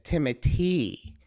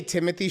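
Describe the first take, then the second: First: "Timothy" said with a t for th, tee-moh-TEE; French-style pronunciation. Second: "Timothée" said like English Timothy, with a th; anglicised pronunciation. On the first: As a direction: make "Timothy" end in a long tee. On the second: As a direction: say "Timothée" as TIM-uh-thee. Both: Retold or imitated. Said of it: "he pronounces it Timothy".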